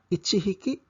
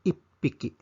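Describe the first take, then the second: First: The number and counter keep separate 'chi' and 'h' sounds. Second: The number and counter merge into a doubled 'p' sound. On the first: The speaker calls it wrong. "Imbis nga ichihiki" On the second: The speaker calls it right.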